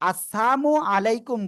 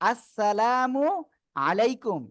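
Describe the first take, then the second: First: One sound in the greeting is pronounced differently. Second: Every sound of the greeting is pronounced carefully. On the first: It wishes death upon the listener. The speaker calls it wrong. "উচ্চারণটা ভুল করে" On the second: It wishes peace upon the listener. The speaker calls it right. "সালামটা আমরা সঠিকভাবে দিব"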